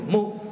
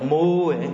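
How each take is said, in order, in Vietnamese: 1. Nguyên âm được giữ ngắn. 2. Nguyên âm được kéo dài. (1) "Đọc ngắn ngắn là" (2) "Chứ đừng đọc mu"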